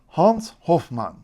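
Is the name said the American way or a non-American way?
non-American. The name is said without an American pronunciation. This is the name's original form.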